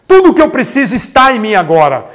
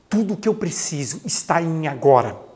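First: It is said forcefully, with strong energy. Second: It is said casually, without much force. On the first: The speaker calls it right. "é com vontade" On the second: The speaker calls it wrong. "quando você fala assim"

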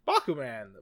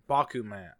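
First: The name is said with an American accent. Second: The name is said without an American accent.

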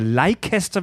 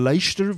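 First: The name is said the German way. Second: The name is said the English way.

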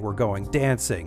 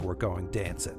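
First: The -ing endings are fully pronounced. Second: The -ing endings are clipped short. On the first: The speaker calls it right. "instead of saying" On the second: The speaker calls it wrong. "cutting off the ends of words"

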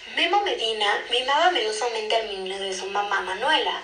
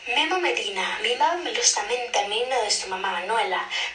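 First: It is spoken in a plain, unmarked Mexican accent. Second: It is spoken in an imitated Spain Spanish accent. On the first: "sin acento" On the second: "Con acento español"

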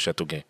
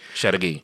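First: The name is said with French pronunciation. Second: The name is said with English pronunciation. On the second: "They say it like that"

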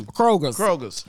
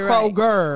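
First: The name ends with an added s sound. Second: The name ends without any s sound. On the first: The speaker calls it wrong. "I do it like that too" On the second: The speaker calls it right. "there's no S on Kroger"

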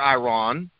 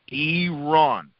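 First: The first vowel is not an 'ee' sound. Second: The first vowel is an 'ee' sound. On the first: The speaker calls it wrong. "you might hear somebody say Iran or Iran" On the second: The speaker calls it right. "E-E-E-R-A-N, Iran, that is the proper pronunciation"

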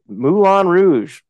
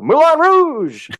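First: It is said in a plain, flat way. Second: It is said with excited, exclamatory emphasis.

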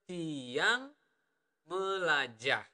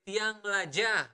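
First: The phrase is spoken slowly. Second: The phrase is spoken at normal speed.

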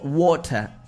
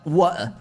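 First: The middle t is clearly pronounced. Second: The middle t is lazily dropped.

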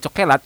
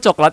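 First: The word is said with three syllables. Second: The word is said with two syllables. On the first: It refers to the food. "Kalau cokelat itu makanan" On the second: It refers to the color. "Kalau coklat itu warna"

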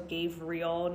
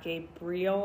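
First: The middle consonant is a V sound. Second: The middle consonant is a B sound. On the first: The speaker calls it right. "with a V" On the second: The speaker calls it wrong. "not a B"

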